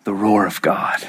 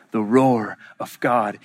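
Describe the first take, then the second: First: Low, whispery solemn refrain; hushed awe. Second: Low voice, words drawn out; slow solemn repeat. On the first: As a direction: breathe it out low in reverence. Hushed echo after Jesus's death. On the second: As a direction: stretch out the refrain gravely. Slower repeat of the refrain. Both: Real, not acted.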